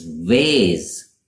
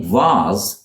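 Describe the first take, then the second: First: "vase" said vayz as transcribed here; American "vase" with a long A; American pronunciation. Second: "vase" said vahz; British "vase", rhyming with spas; British pronunciation. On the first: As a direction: give "vase" an ay vowel. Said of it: "in the U S". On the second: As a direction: give "vase" a long ah. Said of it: "in the U K". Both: Shown as a demonstration.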